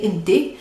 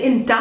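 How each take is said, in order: First: أنتي said as "inti", ending in ee; own urban pronunciation. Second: أنت said as "inta", ending in ah; Bethlehem pronunciation. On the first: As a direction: say أنتي with a final ee sound. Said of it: "The way that I speak". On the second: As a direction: say أنت with a final ah sound. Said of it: "If I came from Bethlehem". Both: Shown as a demonstration.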